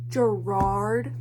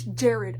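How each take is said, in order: First: The name sounds like 'Gerard'. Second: The name sounds like 'Jared'. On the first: The speaker calls it wrong. "I know I'm saying his name wrong" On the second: The speaker calls it right. "I know it's Jared"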